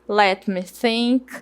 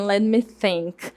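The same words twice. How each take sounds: First: Each word is pronounced separately and fully. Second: The words are run together into one stretch.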